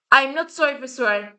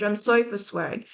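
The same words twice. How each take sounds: First: Firm, unapologetic, punch "not"; defiant retraction. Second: Soft, apologetic take on sorry; a half-meant sorry, softer than her rant; mock apology. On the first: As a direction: take the apology back with defiance. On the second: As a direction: say it quietly as a polite apology. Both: Real, not acted.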